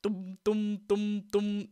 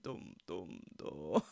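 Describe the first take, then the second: First: Bass line hummed. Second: Dum dum dropped very low and much softer, laughing; very low bass attempt. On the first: Retold or imitated. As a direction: hum along with the bass line, no dip. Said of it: "Just dum". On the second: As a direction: dig down for the lowest bass notes and crack up. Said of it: "I can't do it".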